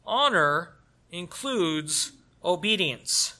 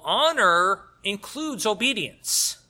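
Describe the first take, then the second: First: Honor stretched slow and heavy; slow emphatic honor. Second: Honor punched loud and slow; stress on honor. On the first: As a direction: lean slowly on the word Honor. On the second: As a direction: hit the word honor hard, slowly. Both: Shown as a demonstration. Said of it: "first of all".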